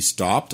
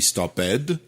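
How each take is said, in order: First: The -ed ending adds no extra syllable. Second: The -ed ending is said as an extra syllable. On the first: The speaker calls it right. "on a dit stopped" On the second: The speaker calls it wrong. "on n'a pas dit stopped"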